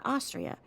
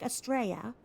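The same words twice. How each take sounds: First: Austria with the stress up front, "AW-stree-uh"; contrasting pronunciation. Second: Australia as a loud "uh-STRAY-uh"; Aussie pronunciation. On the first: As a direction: punch Austria high and loud on its first syllable. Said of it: "But not Austria". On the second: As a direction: hit STRAY in Australia and lose the L. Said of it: "But it's like Australia". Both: Shown as a demonstration.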